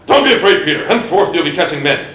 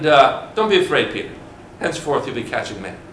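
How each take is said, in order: First: It is said sternly, without a smile. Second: It is said warmly, with a smile. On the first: "Do you think he's like" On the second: "what did he say it with this smile?"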